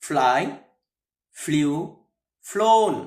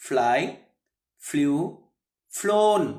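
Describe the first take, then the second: The two takes are said the same way.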